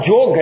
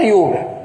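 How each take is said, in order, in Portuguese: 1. A palavra começa com som de J. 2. A palavra começa com som de Y. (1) "Ele fala Yoga" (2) "ele não fala Yoga"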